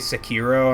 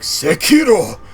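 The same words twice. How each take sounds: First: It is pronounced in a plain English way. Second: It is pronounced in a careful Japanese way. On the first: This is the casual way others say it. "all my friends say" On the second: The speaker is trying too hard to sound authentic. "you're trying too hard"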